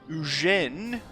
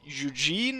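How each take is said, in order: First: The name is said with French pronunciation. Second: The name is said with English pronunciation. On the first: "as you say in France" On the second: "as you say it in English"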